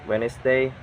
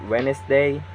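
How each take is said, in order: The two takes are said the same way.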